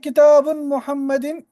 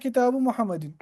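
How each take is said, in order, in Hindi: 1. पहले शब्द के अंत में n की आवाज़ है। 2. पहले शब्द के अंत में n की आवाज़ नहीं है। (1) "ये गलत है" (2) "सही क्या है?"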